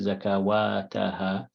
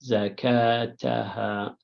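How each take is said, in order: First: The middle 'wa' sound is pronounced aloud. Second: The middle 'wa' sound is left silent. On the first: The speaker calls it wrong. "They will say zakawataha, but that's wrong" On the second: The speaker calls it right. "the wa will be silent"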